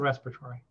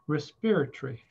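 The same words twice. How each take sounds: First: The word is said in an American way. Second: The word is said in a British way. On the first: "It's called respiratory" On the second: "my friend who went to Oxford in England, she pronounced it respiratory"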